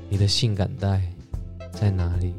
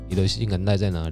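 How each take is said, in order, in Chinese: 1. 说话的语气柔和，带着诱惑。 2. 说话的语气平淡，就事论事。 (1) "你要语气很重要。你要跟他说" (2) "不是说你的性感带在哪里？那个feel 就不对了嘛"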